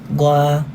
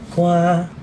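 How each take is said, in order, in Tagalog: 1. Mahinahon at kalmado ang pagkakasabi ng salita. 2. Mahinahon at kalmado ang pagkakasabi ng salita.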